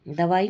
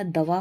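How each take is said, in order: First: दवाई with an added final long i; wrong form. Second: दवा ending on long aa; correct form. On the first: Teacher rejecting the form, दवाई ending in ee. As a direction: end दवाई on ee. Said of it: "नहीं होता". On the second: Teacher giving the correct form, दवा ending in aa. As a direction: stop दवा after two syllables. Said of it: "होता है". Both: Shown as a demonstration.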